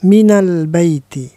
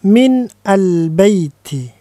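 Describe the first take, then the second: First: The n of min takes an 'a' vowel. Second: The n of min has no vowel after it. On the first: "biasanya dibaca minal baiti" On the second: "Boleh juga dibaca min al-baiti"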